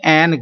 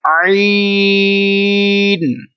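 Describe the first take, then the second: First: It is said with a short 'e' vowel. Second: It is said with a long 'ai' vowel. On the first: The speaker calls it wrong. "ये उर्दू में तो होगा ऐसा" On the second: The speaker calls it right. "अरबी लहजे में"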